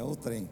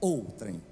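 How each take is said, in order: First: The stress is on the last syllable. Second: The stress is on the first syllable. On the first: The speaker calls it wrong. "não é outrem" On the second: The speaker calls it right. "A ênfase está na primeira sílaba"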